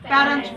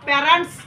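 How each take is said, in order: First: The t sound is clearly pronounced. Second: The t sound is weak or unclear. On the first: The speaker calls it right. "So টিটা উজ্জ্ব থাকবে" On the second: The speaker calls it wrong. "প্যারেন্টস উচ্চারণ করব না"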